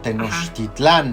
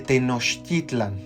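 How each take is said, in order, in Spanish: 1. La última sílaba es tónica. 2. La última sílaba no es tónica. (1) "generalmente le, hace, le eh, dicen Teotihuacán o Tenochtitlán" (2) "lo más cercano al náhuatl ... No hay acento"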